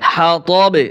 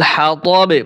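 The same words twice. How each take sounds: The two takes are said the same way.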